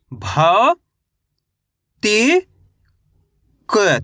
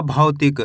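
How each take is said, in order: First: "भौ, ती, क" as separate syllables with long pauses. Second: Said in the usual way. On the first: Shown as a demonstration. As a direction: sound out भौ, ती, क slowly, one by one. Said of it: "एक अक्षर का उच्चारण". (अक्षर-अक्षर अलग करके "भौ, ती, क") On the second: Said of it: "शब्द का उच्चारण".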